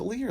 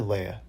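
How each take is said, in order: First: Leah said as LEE-uh; pronounced LEE-uh. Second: Leia said as LAY-uh; pronounced LAY-uh. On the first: Co-host unsure of the character's name, Leah as LEE-uh. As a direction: say Leah with an ee in the first syllable. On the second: Co-host weighing the other name, Leia as LAY-uh. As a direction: say Leia with an ay in the first syllable. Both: Shown as a demonstration. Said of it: "is it Leah or Leia".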